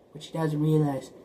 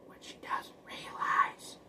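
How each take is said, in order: First: Said in the usual way. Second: Breathy secret whisper, slowed down. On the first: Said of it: "plain repeat after the whisper". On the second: Shown as a demonstration. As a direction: hush it like a secret reveal. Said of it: "repeats the line as a whisper".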